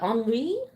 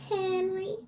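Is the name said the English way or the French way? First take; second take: French; English. First: The name is said with a French pronunciation. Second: The name is said with an American English pronunciation. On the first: "but en français... very regal" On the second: "that's how we say it here in Indiana"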